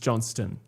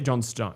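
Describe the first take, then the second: First: The second part is reduced, not like 'stone'. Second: The second part sounds fully like 'stone'. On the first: The speaker calls it right. "you do pronounce the T, but it's not Stone" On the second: The speaker calls it wrong. "you don't say John Stone"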